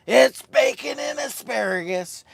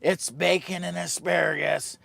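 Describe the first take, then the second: First: Louder and much higher, announcing "asparagus"; hyped announcement. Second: Said in the usual way. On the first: Shown as a demonstration. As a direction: proclaim the dish like a showman.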